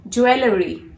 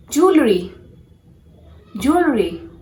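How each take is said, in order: First: "Jewelry" in three syllables, joo-EL-uh-ree; "Jewelry" with an extra middle syllable; mispronounced jewelry. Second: "jewelry" squeezed to two syllables, JOOL-ree; "jewelry" without the middle EL; correct jewelry. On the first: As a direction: sound out every vowel, joo-el-uh-ree, in "Jewelry". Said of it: "this is not jewelry". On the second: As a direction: demonstrate JOOL-ree for "jewelry", falling at the end. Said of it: "has to be pronounced as". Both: Shown as a demonstration.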